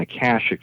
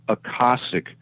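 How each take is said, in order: First: Akashic is said in the usual everyday way. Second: Akashic is said in a less common way. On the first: This is how people commonly say it. The speaker calls it wrong. "the way we pronounce it on Earth" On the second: This is the pronunciation the speaker's friend insisted on. The speaker calls it right. "it's pronounced Akashic rather than"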